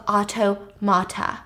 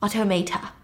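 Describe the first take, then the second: First: "automata" said auto-MAH-ta; first pronunciation attempt. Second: "Automata" said auto-MAY-ta; second pronunciation attempt. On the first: Reading the constructor's title, "automata" said as auto-mah-ta. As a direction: say "automata" with an "ah" in the third syllable. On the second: Shown as a demonstration. Retrying the unfamiliar word, "Automata" said as auto-may-ta. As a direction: say "Automata" with "may" as the third syllable. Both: Tries the word two ways.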